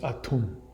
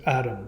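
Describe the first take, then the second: First: The middle consonant is a t sound. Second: The middle consonant is a d sound. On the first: This is how the speaker believes the name is said. The speaker calls it right. "but it's I think it's Atum" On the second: This is how some other people say the name. The speaker calls it wrong. "some people pronounce it Adam"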